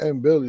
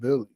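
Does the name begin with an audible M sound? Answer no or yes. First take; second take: yes; no. First: The name begins with an audible M sound. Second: The name begins directly with a B sound. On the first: The speaker calls it wrong. "it's not M Billy" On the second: The speaker calls it right. "It's just Billy"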